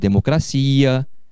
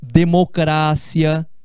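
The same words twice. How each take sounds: First: It is said with the Portuguese stress pattern. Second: It is said with the Spanish stress pattern. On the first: "no lugar de" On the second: "sílaba tônica diferente do português"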